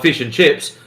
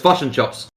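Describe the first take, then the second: First: The vowels are Australian, sounding like 'fish and chips'. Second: The vowels are shifted, sounding like 'fush and chops'. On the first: "So I'll go down the street and buy fish and chips" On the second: "knock them to the right. And that's the Kiwi accent"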